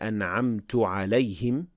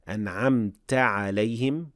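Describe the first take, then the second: First: The first word ends in a 'u' vowel. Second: The first word ends in an 'a' vowel. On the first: The speaker himself did the favor. The speaker calls it wrong. "with ضمة" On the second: The one addressed did the favor. The speaker calls it right. "with فتحة"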